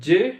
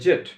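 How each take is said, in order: First: The letter is said as zee, American style. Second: The letter is said as zed, British style. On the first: "আমেরিকানরা বলে জে" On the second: "ব্রিটিশরা বলে জেড"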